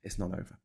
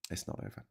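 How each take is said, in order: First: Said in the usual way. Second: Whispered It's not over, much softer; a whispered warning. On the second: Shown as a demonstration. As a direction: breathe it like a secret.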